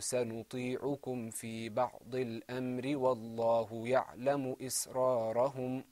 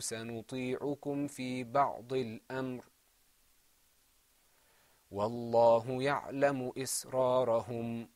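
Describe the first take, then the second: First: It flows on without a pause after al-amr. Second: There is a pause after al-amr.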